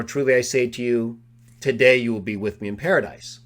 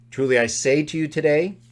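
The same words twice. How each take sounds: First: Break, then today opens the promise; pause before today. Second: TODAY joined to "say to you", rising; stress on today. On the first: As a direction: pause after "Truly I say to you", then "today" starts the next clause. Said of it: "To which verbal expression does today belong?". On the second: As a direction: lean on today at the end of the first clause. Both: Shown as a demonstration.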